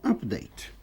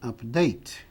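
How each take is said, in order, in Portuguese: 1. A tônica é na primeira sílaba. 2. A tônica é na segunda sílaba. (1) "Atualização é update" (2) "Atualizar é update"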